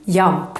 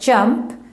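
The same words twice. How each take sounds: First: The word begins with a y sound. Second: The word begins with an English j sound. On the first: "we would pronounce this letter more like the English Y" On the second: "pronounce this word"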